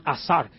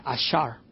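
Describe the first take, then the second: First: "azar" con s clara, a-SAR; pronunciación corregida. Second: "ashar" con sonido sh, como "ashar"; pronunciación equivocada. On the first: ("azar" dicho con s, sin sh) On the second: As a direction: dice "ashar" con sh suave en lugar de z. ("ashar" pronunciado con sh) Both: Shown as a demonstration. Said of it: "Perdón, azar".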